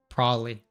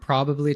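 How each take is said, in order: First: Both b sounds are dropped, making it shortest. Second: All syllables and both b sounds are pronounced. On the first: "like even taking out all the B's" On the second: "it can go from probably"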